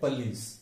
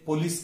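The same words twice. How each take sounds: First: The stress is on the second syllable. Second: The stress is on the first syllable. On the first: The speaker calls it right. "और सही क्या है?" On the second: The speaker calls it wrong. "हम गलती से उसे police कहते हैं"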